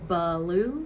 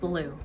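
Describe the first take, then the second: First: An extra syllable is added, making two syllables. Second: The word is said as a single syllable. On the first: The speaker calls it wrong. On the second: The speaker calls it right.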